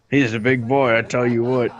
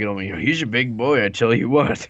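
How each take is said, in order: First: Put-on big boy in a light Southern accent. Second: Lightly Southern, rising at the end; southern accent. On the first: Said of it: "And southern accents". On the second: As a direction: say it like a NASCAR fan. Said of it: "you gotta say it like". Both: Shown as a demonstration.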